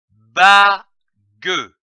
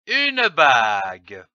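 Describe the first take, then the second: First: "bague" split as ba, pause, gue, first part loud; syllable by syllable. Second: Said in the usual way. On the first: Shown as a demonstration. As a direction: sound out "bague" in two separate syllables, ba / gue. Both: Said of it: "L'association de ces deux syllabes".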